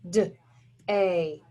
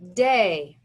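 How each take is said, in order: First: Day split into duh, pause, ay; segmented phonics sounds, "D-A"; sounded out. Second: Said in the usual way. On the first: Shown as a demonstration. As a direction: tap out "D-A" as two separate sounds. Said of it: "Tap it out".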